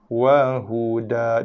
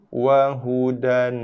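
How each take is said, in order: First: The word ends on a long vowel. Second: The word ends with an n sound. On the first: The reading stops at this word. "bila waqaf dibaca dengan wahuda" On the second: The reading continues into the next words. "bacaan asal. Ataupun bacaan ketika wasal"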